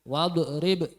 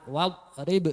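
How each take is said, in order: First: The final consonant is released with a bounce. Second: The final consonant is held without a bounce. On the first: The speaker calls it wrong. "jangan wal rib" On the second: The speaker calls it right. "tapi ditahan wal rib"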